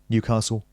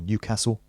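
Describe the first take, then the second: First: It is said without a northern English accent. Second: It is said with a northern English accent.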